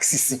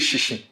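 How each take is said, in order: First: It is said with the Krobo pronunciation. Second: It is said with the Ga pronunciation. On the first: "They will say something like sisi" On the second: "They don't say shishi"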